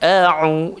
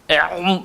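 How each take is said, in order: First: The throat sound is soft and light. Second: The throat sound is pressed hard and heavy. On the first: The speaker calls it right. "dia lembut saja. A'u, cukup dah" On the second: The speaker calls it wrong. "berat sangat"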